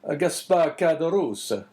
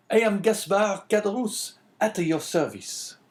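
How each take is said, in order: First: Put-on slow Italian-accented priest. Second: High-pitched host voice; obliging innkeeper. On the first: Priest rejoining to the host, Italian accent. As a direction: repeat the name slowly with an Italian accent. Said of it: "speaking with a strong Italian accent". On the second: Host introducing himself to the priest, obliging innkeeper. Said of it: "answered the host". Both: A narrator's reading.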